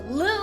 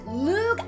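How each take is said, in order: First: The name ends on an open vowel sound. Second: The name ends with a hard consonant sound. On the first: "as in the G is silent" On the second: "there's the G right there"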